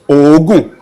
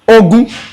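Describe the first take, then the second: First: Said with the tone pattern meaning 'sweat'. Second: Said with the tone pattern meaning 'accurate'. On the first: The word means sweat. "that means sweat" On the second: The word means it is accurate. "that means it is accurate"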